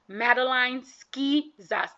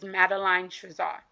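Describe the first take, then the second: First: The surname begins with an sk sound. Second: The surname begins with a sh sound. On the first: The speaker calls it right. "I'm gonna say this right" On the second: The speaker calls it wrong. "Nope, I'm gonna say this right"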